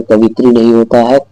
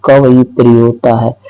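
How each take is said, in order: First: कवित्री said as the wrong form, kavitri; the wrong way, कवित्री without the ya. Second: कवयित्री said fully as kavayitri; correct form. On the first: (गलत उच्चारण कवित्री) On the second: (सही उच्चारण कवयित्री) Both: Shown as a demonstration.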